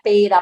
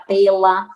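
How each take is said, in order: First: The middle consonant is a tapped R sound. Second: The middle consonant is an L sound. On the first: "um R pelo L" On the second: "um R pelo L"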